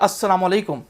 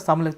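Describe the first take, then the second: First: The greeting is said with every sound in full. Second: The greeting is said with an altered, clipped sound. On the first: It wishes peace on the listener. The speaker calls it right. "तुम पर सलामती हो" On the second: It wishes death on the listener. The speaker calls it wrong. "तुम्हें मौत आए"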